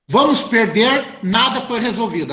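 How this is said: There is a pause before 'nada'. They are going to lose; nothing was resolved. "A vírgula antes do nada"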